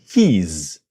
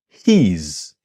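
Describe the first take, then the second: Both takes have the same delivery.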